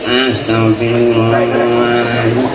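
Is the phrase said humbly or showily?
humbly. It is said plainly and humbly, with devotion. The speaker cares only about sincere devotion.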